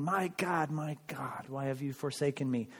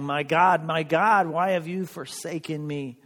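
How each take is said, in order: First: Much softer, falling, anguished quote; a quiet echo of last week's cry; hushed lament. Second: Raised, pleading cry to God; a mild retold lament, lifted on "My God"; quoted cry. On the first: Retold or imitated. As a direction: let it sink almost to a murmur. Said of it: "he was saying". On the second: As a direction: call it out like a man despairing. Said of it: "he was crying".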